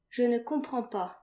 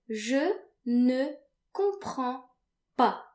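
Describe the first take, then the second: First: Said in the usual way. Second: Teacher demo, clearly paced; slow, over-articulated model. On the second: Shown as a demonstration. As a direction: slowly spell out "Je ne comprends pas" syllable by syllable. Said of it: "you can say".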